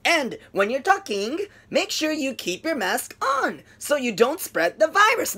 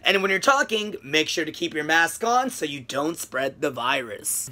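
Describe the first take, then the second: First: Slow, stiff, word-by-word delivery; choppy robotic English. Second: Low, slow and flowing, fading softer; smooth natural English. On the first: Retold or imitated. Teacher imitating her choppy English. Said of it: "ロボットのような感じ". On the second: Shown as a demonstration. Teacher showing his own smooth version. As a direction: let the words run together smoothly. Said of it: "僕でしたら".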